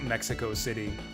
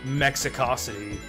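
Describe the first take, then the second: First: The main stress falls on city. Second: The main stress falls on co. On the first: The speaker calls it wrong. "not Mexico City" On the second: The speaker calls it right. "It is pronounced Mexicosity"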